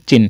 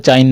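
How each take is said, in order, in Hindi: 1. स्वर एक छोटा 'ih' है। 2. स्वर 'eye' जैसा है। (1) "क्या है? चिन।" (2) "यहाँ पर चाइन नहीं पढ़ेंगे, चाइन मत पढ़ देना इसको"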